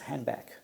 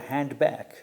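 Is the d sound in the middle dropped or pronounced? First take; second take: dropped; pronounced. First: The d sound in the middle is dropped. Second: The d sound in the middle is pronounced. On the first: "sometimes pro pronounced as handback. So the duh is not pronounced" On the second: "the word handback"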